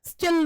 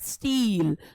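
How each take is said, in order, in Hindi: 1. स्वर छोटा है। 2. स्वर लंबा है। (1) "स्टिल नहीं होता" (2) "यानी कि बड़ी की मात्रा आ रही है"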